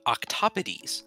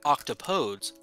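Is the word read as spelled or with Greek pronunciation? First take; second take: Greek; as spelled. First: The word is said with Greek pronunciation. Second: The word is read the way it looks. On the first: "with the Greek pronunciation, it would be octopodes" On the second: "It's it looks like octopodes"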